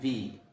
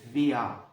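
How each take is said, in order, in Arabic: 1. الكلمة تنتهي بالحركة دون صوت r. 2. الكلمة تنتهي بصوت شبيه بحرف العلة a. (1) "لما بيجوا يتكلموا بسرعة بينطقوا في" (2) "بعد كده شوية هتسمعها بتقلد فيا"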